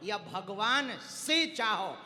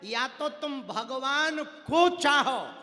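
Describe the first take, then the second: First: Slow, drawn-out "से"; stress on से. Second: Slow, loud, high weight on "को"; stress on को. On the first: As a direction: stretch "से" as the other choice. Sets out second of two ways. ("से" को खींचकर ज़ोर) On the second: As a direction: punch and stretch "को". Sets out first of two ways. ("को" पर ऊँचा, खींचा हुआ ज़ोर) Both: Shown as a demonstration.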